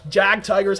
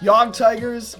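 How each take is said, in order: First: The first word is said the English way. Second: The first word is said the German way. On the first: The speaker calls it wrong. "however you pronounce it" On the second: The speaker calls it right. "It's properly pronounced Yog Tigers, uh, because that's how the Germans say it"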